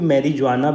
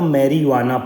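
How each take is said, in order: First: The j is pronounced as a j sound. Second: The j is silent, not pronounced.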